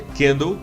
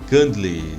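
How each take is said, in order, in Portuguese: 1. A palavra tem pronúncia em estilo inglês. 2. A palavra tem pronúncia em estilo português. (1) "a pronúncia correta é candle" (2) "Não se fala candle"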